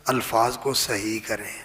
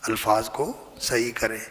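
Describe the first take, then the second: No difference in how they are said.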